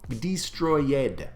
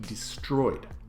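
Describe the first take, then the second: First: The stress falls on an unusual syllable. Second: The stress falls on the usual syllable.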